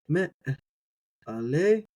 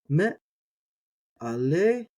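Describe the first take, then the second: Both takes have the same delivery.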